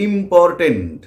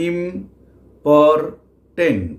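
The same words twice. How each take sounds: First: Said in the usual way. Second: important very slow, pausing between ইম, পর and tent; syllable by syllable. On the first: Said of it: "আবার একটা উদাহরণ দিচ্ছি". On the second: Shown as a demonstration. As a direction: break important into three long, separate beats. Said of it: "এটা তো তিনটে syllable আছে". (Important, থেমে থেমে তিন ভাগে)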